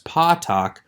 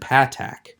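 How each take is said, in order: First: The vowel sounds like the a in father. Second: The vowel does not sound like father's a. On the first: "I pronounce the short A as the A in father or the O in bottle" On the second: This follows the ancient Tiberian pronunciation. "rather than the ah sound that Van Pelt and Pratico suggest"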